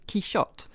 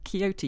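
First: The middle consonant is an 'sh' sound. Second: The middle consonant is not an 'sh' sound. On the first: This is the form the novel uses. "you style as Quixote" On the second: This is the form the novel does not use. "who you do not style as Quixote"

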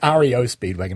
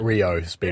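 First: The first word is spelled out as letters. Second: The first word is said as one word. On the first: The speaker calls it right. "it's REO Speedwagon" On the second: The speaker calls it wrong. "not Rio Speedwagon"

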